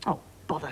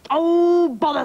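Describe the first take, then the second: First: Soft, deflated little grumble; subdued dismay. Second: Loud, high, drawn-out frustration; exasperated outburst. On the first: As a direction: let it out softly, as if defeated. King's plan is spoiled. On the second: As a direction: burst out in storybook exasperation. King thwarted again, loses patience. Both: Acted.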